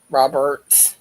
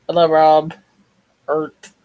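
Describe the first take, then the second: First: Said in the usual way. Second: Loud, high "Rob", a pause, then "Ert"; name split in two. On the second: Real, not acted. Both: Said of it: "why I said Rob, Bert".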